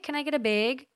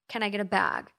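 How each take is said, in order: First: It is said with a Minnesota accent. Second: It is said with a Californian accent.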